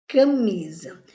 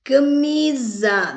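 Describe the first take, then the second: First: Said in the usual way. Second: "Camisa" slower and higher, MI up and SA down; stress on MI. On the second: Shown as a demonstration. Teacher showing which syllable rises, "Camisa" with a high stressed MI. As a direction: raise and stretch the MI in "Camisa", drop the SA. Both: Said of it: "O mi subiu e o za desceu".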